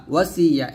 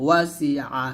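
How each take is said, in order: First: "ওয়াসিয়া" run together with a ya ending; wrong reading demo. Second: "ওয়াসি আ" with a separate throaty a at the end; slow, correct ayn. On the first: Teacher showing what not to say, "ওয়াসিয়া" without ayn. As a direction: glide into ya, losing the ayn. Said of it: "এরকম না". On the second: Teacher correcting students, "ওয়াসি আ" with clear ayn. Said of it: "এরকম আস্তে আস্তে". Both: Shown as a demonstration.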